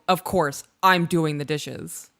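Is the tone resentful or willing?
resentful. It sounds irritated and resentful. The speaker is annoyed at having to do it again. "I can't believe I have to fucking do this again"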